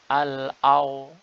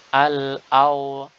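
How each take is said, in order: Both takes have the same delivery.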